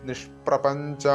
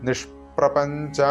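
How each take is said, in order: The two takes are said the same way.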